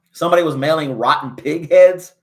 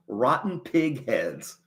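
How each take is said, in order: First: Said in the usual way. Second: Rotten pig heads drawn out slowly, soft; slow disbelief. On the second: Real, not acted. Streamer repeating the news to chat in slow disbelief. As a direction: let each word of Rotten pig heads sink in.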